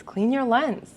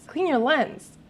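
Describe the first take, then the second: First: Said in the usual way. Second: CLEAN pitched well higher; exasperated high command; insistent high repeat. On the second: Real, not acted.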